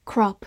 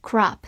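First: "crop" with a short rounded British-style o. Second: "crop" with an open American "ah" vowel; American "crop", like krahp; American pronunciation. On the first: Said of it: "字母O发短音O". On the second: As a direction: open the mouth wider on the o of "crop". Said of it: "美式发音字母O口型比较大". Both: Shown as a demonstration.

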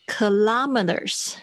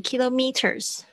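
First: Kilometers said slowly as kuh-LAH-muh-ters; stress on LA. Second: Kilometers said as KILO-meters, stress on KI; alternative pronunciation. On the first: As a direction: put the stress of kilometers on the second syllable, "LOM". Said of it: "那个重音跑到拉上面". (kilometers重音放在“拉”上，慢慢念) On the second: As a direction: say kilometers as "KEE-loh-mee-ters". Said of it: "有些人会念kilometers". (kilometers念成KILO-meters，重音在开头) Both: Shown as a demonstration.

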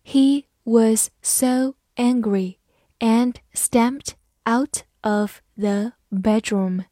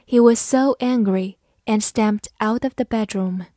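First: Very slow, word-by-word model reading; teacher's slow read-along pace. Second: Said in the usual way. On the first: Shown as a demonstration. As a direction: separate every word for learners to follow. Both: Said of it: "慢慢来读".

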